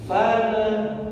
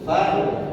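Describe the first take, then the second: First: The l bounces into an extra vowel. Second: The l stops cleanly with no vowel. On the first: The speaker calls it wrong. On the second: The speaker calls it right. "Harusnya diam dulu. Tidak ada suara pantulan"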